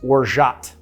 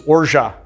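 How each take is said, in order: First: The final T is pronounced. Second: The final T is not pronounced. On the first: This is the American pronunciation. "In the U S, you would, I guess, pronounce orgeat with the T" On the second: This is the French pronunciation. "The pronunciation in French is orgeat. The T is silent"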